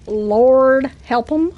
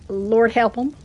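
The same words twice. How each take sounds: First: Slow, stretched-out repeat; drawn-out exclamation. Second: Said in the usual way. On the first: Real, not acted. Streamer on fans of their accent, drawn-out exclamation. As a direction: draw "Lord" out long, letting "'em" lift at the end.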